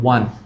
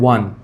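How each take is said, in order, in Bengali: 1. এটা 'one' এর মতো বলা হয়, w এর উচ্চারণ সহ। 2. এটা 'one' এর মতো বলা হয়, w এর উচ্চারণ সহ।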